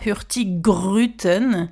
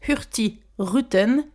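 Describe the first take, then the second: First: The middle g is pronounced as one word. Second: The middle g is silent, split in two. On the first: The speaker calls it wrong. "C'est pas Hurtigruten" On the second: The speaker calls it right. "on prononce Hurti Ruten et pas Hurtigruten"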